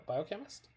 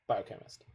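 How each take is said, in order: First: Biochemist? asked with a rising, doubtful tune; tentative rising biochemist?; unsure question. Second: Biochemist. settled with a firm falling tune; sure, falling Biochemist; confirming statement. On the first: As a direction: check the word biochemist? as a question. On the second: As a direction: state Biochemist. flatly as the answer. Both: Real, not acted.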